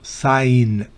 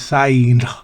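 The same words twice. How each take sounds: First: No g sound is pronounced. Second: A g sound is pronounced. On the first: The speaker calls it right. "No se pronuncia la G" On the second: The speaker calls it wrong. "No es sign"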